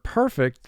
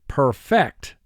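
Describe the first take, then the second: First: The stress is on the first syllable. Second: The stress is on the second syllable. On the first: Someone or something is beyond reproach. "the accent mark or the emphasis is on the first syllable" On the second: To complete or refine something. "if you put the emphasis or accent mark on the second syllable"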